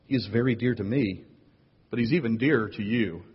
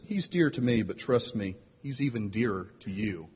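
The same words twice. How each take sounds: First: Said in the usual way. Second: Softer, quietly menacing delivery; veiled threat. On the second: Acted. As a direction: say it kindly with a threat underneath. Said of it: "has a lot of threat in it".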